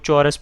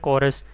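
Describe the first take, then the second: First: The word begins with a ch sound. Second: The word begins with a k sound. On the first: The speaker calls it wrong. "चौरस पढ़ लेंगे, तो ये इस तरह नहीं पढ़ा जाएगा" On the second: The speaker calls it right. "के की आवाज़ निकाल रहा है, इसको पढ़ा जाता है"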